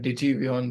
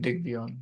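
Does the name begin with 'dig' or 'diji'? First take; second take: diji; dig. First: The name begins with two syllables, 'diji'. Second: The name begins with a short 'dig' syllable. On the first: The speaker calls it wrong. "मैं डिजी वियन बोलता आ रहा था अभी तक" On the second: The speaker calls it right. "Okay डिग वियन"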